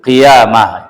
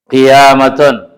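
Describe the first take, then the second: First: The ending is said with an h sound. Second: The ending is said with a t sound. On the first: The word is read at a pause. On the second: The word is read in connected speech.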